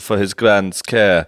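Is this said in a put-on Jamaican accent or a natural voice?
Jamaican accent. It is said in a put-on Jamaican accent. The speaker calls it wrong. "If you think that's Jamaican"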